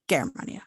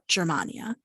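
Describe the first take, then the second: First: The G is hard, like in gas. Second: The G is soft, like English j. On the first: The speaker calls it right. "hard G" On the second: The speaker calls it wrong. "not Germania"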